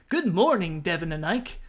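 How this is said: It is said in an invented character voice.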